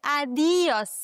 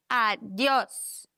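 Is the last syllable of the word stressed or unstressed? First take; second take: unstressed; stressed. First: The stress is not on the last syllable. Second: The stress is on the last syllable. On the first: The speaker calls it wrong. "dass du nicht adios sagst" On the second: The speaker calls it right. "die Silbe mit dem O muss betont werden"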